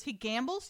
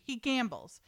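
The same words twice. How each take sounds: First: "He gambles?" lifted as a question; questioning echo. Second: Said in the usual way. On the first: Acted. Daughter echoing her mother's news about Harry, questioning. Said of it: "She goes". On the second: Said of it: "found out something awful about Harry".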